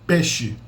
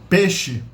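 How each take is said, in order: No difference in how they are said.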